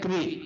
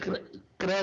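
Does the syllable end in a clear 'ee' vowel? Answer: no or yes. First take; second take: yes; no. First: The vowel is a clear long 'ee'. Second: The vowel is not a clear long 'ee'. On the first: The speaker calls it right. "ई की मात्रा" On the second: The speaker calls it wrong. "नहीं"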